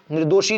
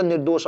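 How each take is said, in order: First: "निर्दोषी" with final long i, nir-do-shi; wrong form demonstrated. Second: "निर्दोष" ending on bare sh, nir-dosh; correct form demonstrated. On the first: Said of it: "निर्दोषी नहीं होता". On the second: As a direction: end "निर्दोष" without an i. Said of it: "शब्द क्या था". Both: Shown as a demonstration.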